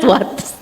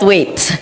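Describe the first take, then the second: First: The vowel sounds like the one in 'what'. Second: The vowel sounds like the one in 'wait'. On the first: The speaker calls it wrong. "not what" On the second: The speaker calls it right. "I pronounce it Waits"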